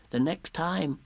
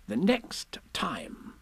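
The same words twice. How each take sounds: First: Small, higher piglet voice; Piglet's timid relay. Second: Slow, high, measured instruction; Rabbit's secretive aside. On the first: Piglet relays the message to Pooh, small higher voice. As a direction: pass it on in a small voice. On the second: Rabbit passes a message to Piglet, slow high aside. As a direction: confide it slowly in a raised pitch. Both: Acted.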